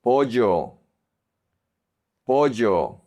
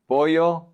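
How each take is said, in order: First: Pollo with a hard j, "po-jo"; j sound. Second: Pollo with a soft y, "po-yo". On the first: Teacher modelling Colombian pollo for learners, hard j sound. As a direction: say the ll in pollo like English j. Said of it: "focus on the j sound". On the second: Teacher showing the softer option, pollo with soft ll. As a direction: say the ll in pollo like y in yes. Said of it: "do the soft one". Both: Shown as a demonstration.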